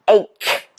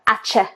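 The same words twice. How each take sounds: First: The word is said with a 'k' sound. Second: The word is said with a 'ch' sound. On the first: The speaker calls it right. "rather than ache, ... So there's a k, k sound" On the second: The speaker calls it wrong. "Lots of non-native speakers will pronounce this ch"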